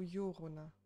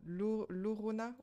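First: The name begins with a Y sound. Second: The name begins with a plain L sound. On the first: "on va pas parler mexicain" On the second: "Il y a deux L, mais ça se prononce un seul"

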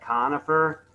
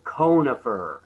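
First: The first syllable sounds like 'con'. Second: The first syllable sounds like 'cone'. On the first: The speaker calls it wrong. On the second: The speaker calls it right.

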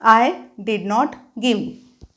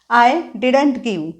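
First: Did not is said as two full words. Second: Did not is contracted into one word.

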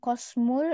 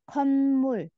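First: The first syllable ends in an s sound. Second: The first syllable ends in an n sound. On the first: The speaker calls it wrong. "Bacanya bukan bukan kosmul" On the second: The speaker calls it right. "kayak dibaca nian, tapi nyambung ke miem"

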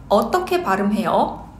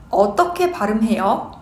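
No difference in how they are said.

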